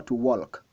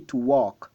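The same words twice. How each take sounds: First: "walk" with the L sounded, like "wolk"; "walk" said "wolk", the learner's mistake; wrong pronunciation. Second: "walk" said "wok" with the L silent; "walk" cleanly as "wok"; correct pronunciation. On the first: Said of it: "on ne dit pas". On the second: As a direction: drop the L in "walk". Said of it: "on dit". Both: Shown as a demonstration.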